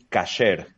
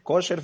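First: The first vowel is pronounced as A. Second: The first vowel is pronounced as O. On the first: "la palabra en hebreo es kasher, con A" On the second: "que la A la pronuncian O"

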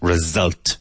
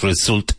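First: The middle consonant is a buzzing z sound. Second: The middle consonant is a hissing s sound. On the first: The speaker calls it right. "there's a Z or a Z sound in there" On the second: The speaker calls it wrong. "Not result"

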